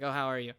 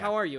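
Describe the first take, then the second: First: It sounds perfunctory and uninterested. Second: It sounds warm and genuinely interested.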